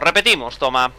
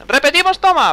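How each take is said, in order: First: Said in the usual way. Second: Much higher, playful squeak; mock high repeat. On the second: Shown as a demonstration. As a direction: toss it off in a high silly voice.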